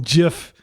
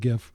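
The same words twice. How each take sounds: First: The word begins with a J sound. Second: The word begins with a hard G sound. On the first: The creator intended this pronunciation. "I did pronounce it with a hard J" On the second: Most people say it this way. "everybody pronounces it GIF"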